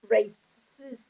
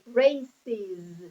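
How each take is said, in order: First: The s is added directly, one syllable. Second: The ending has an extra vowel, two syllables. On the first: The speaker calls it wrong. "I cannot say races" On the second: The speaker calls it right. "I need the E in the middle. So, I say races"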